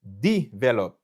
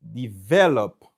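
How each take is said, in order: First: Develop as DE-velop, first syllable punched; wrong first-syllable stress. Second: Develop as de-VE-lop, slow, VE stretched; slow develop, falling away after a strong VE; correct middle-syllable stress. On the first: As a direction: hit DE hard in develop, then drop. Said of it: "M pa ka di". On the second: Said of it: "M ap di". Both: Shown as a demonstration.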